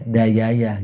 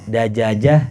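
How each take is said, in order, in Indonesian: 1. Kata itu diucapkan dengan bunyi y. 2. Kata itu diucapkan dengan bunyi j.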